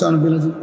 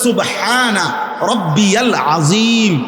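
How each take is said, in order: First: The words are clipped and slurred together. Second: Each word is pronounced fully and distinctly. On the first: The speaker calls it wrong. "আপনি এটা কি বললেন?" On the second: The speaker calls it right. "শব্দ হইল"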